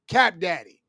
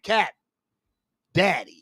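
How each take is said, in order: First: The two words run together without a pause. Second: There is a pause between the two words. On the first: The speaker calls it right. "you got to flow with it" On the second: The speaker calls it wrong. "you want to put a pause in it like"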